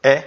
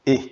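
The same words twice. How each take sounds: First: E as an open "eh" vowel, like French è; isolated E, open like the reversed-three letter; open E sound. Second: E as a closed "ay" vowel, like French é; isolated E, tight and closed; closed E sound. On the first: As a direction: say E more open, as in mère. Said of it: "et elle se prononce". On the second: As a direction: say E with the tongue high, as in été. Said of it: "c'est ça qui est écrit au rouge". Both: Shown as a demonstration.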